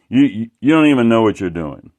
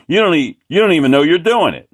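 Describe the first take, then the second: First: Moderately loud imitated scolding, "don't" pushed; huffy artist telling him he's clueless; mock angry rant. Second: Higher, louder and fast, "don't" hammered; insulting shout. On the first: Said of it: "It, like, he was pissed". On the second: Retold or imitated. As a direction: throw the insult right back at him, fast. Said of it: "He was insulting me".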